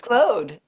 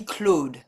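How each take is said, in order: First: It is said with a long English O. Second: It is said with a French vowel sound. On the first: "pronounce it as if it's spelled C L O D E" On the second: "the French would be Claude"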